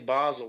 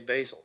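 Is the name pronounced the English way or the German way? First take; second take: German; English. First: It is pronounced the German way. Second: It is pronounced the English way. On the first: The speaker calls it right. "pronounce it like they do in German" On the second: The speaker calls it wrong. "other people say Basel"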